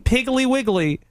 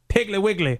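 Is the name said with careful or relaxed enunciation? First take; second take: careful; relaxed. First: Each syllable of the name is carefully enunciated. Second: The name is said loosely, without careful enunciation. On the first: The speaker calls it wrong. "I kept enunciating. I kept saying Piggly Wiggly" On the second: The speaker calls it right. "They're like, no. It's Piggly Wiggly"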